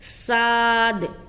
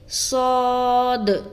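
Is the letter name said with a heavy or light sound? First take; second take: light; heavy. First: The letter is said thin, like an s sound. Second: The letter is said with a heavy, full sound. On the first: The speaker calls it wrong. "ये तो सीन की तरह की आवाज आ रही है" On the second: The speaker calls it right. "जब हम सौद को अदा करेंगे तो हम पढ़ेंगे सौद"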